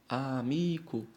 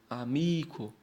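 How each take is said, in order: First: The stress is on the second-to-last syllable. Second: The same.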